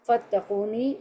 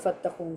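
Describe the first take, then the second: First: The word ends with an added 'ni' sound. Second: The word ends on a plain 'n' sound. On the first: The ending means 'me'. "नी नून कसरा नी या की आवाज़ आ रही है" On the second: The reader is stopping at the end of the verse. "जब कुरान पढ़ते हैं तो आयत पे रुकते हैं तो फत्तकून"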